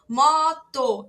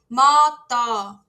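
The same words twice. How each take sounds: First: The first O is open, the second closed. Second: Both O vowels have the same quality. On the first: The speaker calls it right. "um O mais aberto na primeira vez e um O mais fechado na segunda vez" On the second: The speaker calls it wrong. "Não posso falar"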